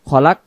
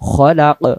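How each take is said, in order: First: The final k is light and stops flat. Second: The final k is deep and echoes out. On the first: The speaker calls it wrong. "যদি আমি বলি খলাক খলাক তখন এখানে এই কাফ অক্ষরের সাকিনের আদায় হয়ে যায়" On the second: The speaker calls it right. "কফ অক্ষর জিহ্বার গোড়া থেকে মোটা করে পড়তে হবে"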